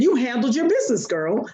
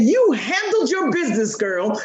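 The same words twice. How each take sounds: First: Said in the usual way. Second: Said higher and with more punch, like a proud cheer; emphatic praise. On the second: Retold or imitated. Mother repeats praise to daughter on request, proudly emphatic. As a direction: give it to her like a proud cheer. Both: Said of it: "Say it to me, Mommy".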